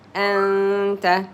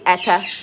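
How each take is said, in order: First: A faint nasal n sound is heard. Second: The n sound is dropped completely. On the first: The speaker calls it right. "you hear a little bit of it like ing ... you hide it" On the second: The speaker calls it wrong. "you just don't say ata no"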